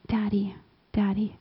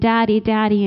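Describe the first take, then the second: First: It sounds hesitant and awkward. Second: It sounds joyful and full of delight.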